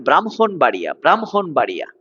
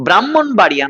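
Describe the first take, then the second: First: "ব্রাহ্মণবাড়িয়া" as bram-hon-baria, h sounded after m; correct pronunciation. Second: "ব্রাহ্মণবাড়িয়া" as brammon-baria, doubled m, no h; wrong pronunciation. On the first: Teacher corrects the town's name for students, correctly pronounced. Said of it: "ব্রাহ্মণবাড়িয়া নয়". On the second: Teacher shows students the town misnamed, mispronounced. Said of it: "নয়". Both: Shown as a demonstration.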